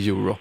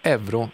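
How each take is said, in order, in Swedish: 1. Ordet uttalas på kontinentaleuropeiskt sätt. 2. Ordet uttalas på svenska sättet. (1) "istället för euro" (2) "svenskarna då, till skillnad från övriga Europa, säger euro"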